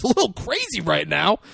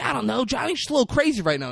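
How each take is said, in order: First: "A little crazy right now?" repeated as a rising question; incredulous echo. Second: Lightly acted, higher and quick; defensive retelling. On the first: Retold or imitated. Chucky throwing "A little crazy right now?" back at Frankie, rising incredulous echo. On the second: Frankie explaining Johnny to Chucky, higher mock-defensive voice. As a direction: excuse it in a raised, hurried voice.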